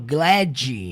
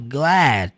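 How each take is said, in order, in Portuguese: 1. O D final é pronunciado com força. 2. O D final é quase não pronunciado, bem sutil. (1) "eu não falo glad" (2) "o D no final, ele quase não é pronunciado, é sutil"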